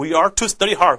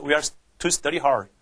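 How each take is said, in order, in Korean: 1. 목소리를 높이고 세게 올려요. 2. 목소리가 낮고 차분하게 유지돼요. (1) "목소리를 높여가지고" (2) "그냥, 그냥 쓸 수 있어"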